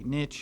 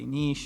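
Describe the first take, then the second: First: The word is said the speaker's local way. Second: The word is said the European way. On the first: "here we say niche" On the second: "in Europe they say niche"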